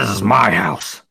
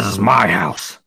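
First: It is said in a put-on character voice. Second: The same.

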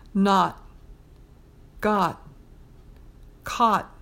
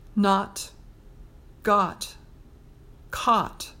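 First: The final T sounds are only half said. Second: The final T sounds are fully released.

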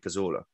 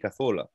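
First: The name is said with English sounds. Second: The name is said with Spanish sounds. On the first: The listeners are English speakers. "if I do a football commentary in England, I'll say Cazorla" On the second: The listener is a Spanish speaker. "I'll say Santi Cazorla, ... but only to a Spanish person"

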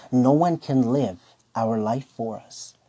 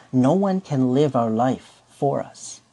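No difference in how they are said.

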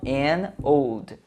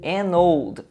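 First: The two words are said apart, not joined. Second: The n runs straight into the next vowel. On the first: The speaker calls it wrong. "e não an old" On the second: The speaker calls it right. "você pode juntar a pronúncia, então fica an old"

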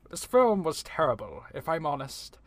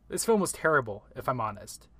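First: It is read in a put-on accent. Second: It is read in his normal voice.

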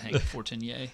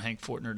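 First: The surname is said in a French style. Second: The surname is said in plain English style. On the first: This is the name as it will be used from now on. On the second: This is the name as it was used before.

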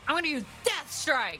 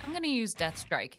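First: It is said in a dramatic, badass way. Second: It is said in a calm, casual way.

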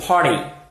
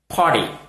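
First: It is said with an American accent. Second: The same.

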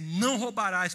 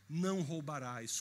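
First: It sounds like a stern command. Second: It sounds like a reassuring promise.

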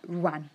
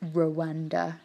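First: The word is run together as one sound. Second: The word is split into separate syllables. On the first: This is how locals say it. "It's more like sort of all in one" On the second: This is how outsiders say it. "like we do"

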